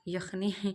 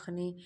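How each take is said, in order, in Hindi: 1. यह शब्द 'y' ध्वनि से शुरू होता है। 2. यह शब्द एक सामान्य स्वर ध्वनि से शुरू होता है। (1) "आप यखनी क्या बोला करो" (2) "हमारे यहाँ अखनी बोला जाता है"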